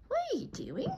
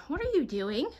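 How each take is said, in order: First: Very high, squeaky pet voice, softer; pet talk. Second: Slightly raised, teasing question to the dog; mild pet voice, just lifted; pet talk. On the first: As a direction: squeal the question at the dog. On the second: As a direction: ask the dog playfully, a bit higher. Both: Real, not acted. Talking to her dog.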